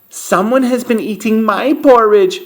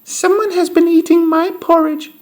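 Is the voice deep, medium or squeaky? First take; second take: medium; squeaky. First: A medium, mid-pitched voice. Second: A tiny, high, squeaky voice.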